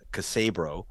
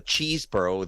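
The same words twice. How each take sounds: First: "Casabro" in three syllables, kuh-SAY-bro; alternative pronunciation of name. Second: "Cheeseborough" said like cheese plus burro; first pronunciation of name. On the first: Guest offering how others say the lawyer's name, "Casabro" with a K start. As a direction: say "Casabro" with an opening K, not cheese. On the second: Guest naming a Justice Department lawyer, pronounced "Cheeseborough" with a cheese start. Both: Shown as a demonstration. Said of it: "some people pronounce it".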